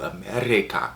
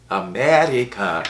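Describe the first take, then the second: First: Said in the usual way. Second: "America" drawn out slowly, syllable by syllable; mock-grand, slow "America"; exaggerated pronunciation. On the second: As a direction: savour "America" in a put-on, slow delivery. Repeats country name for effect.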